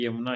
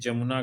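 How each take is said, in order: First: The word begins with a 'y' sound. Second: The word begins with a 'j' sound. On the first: The speaker calls it right. "यमुना सही है" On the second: The speaker calls it wrong. "जमुना गलत है"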